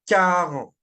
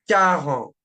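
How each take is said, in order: Both takes have the same delivery.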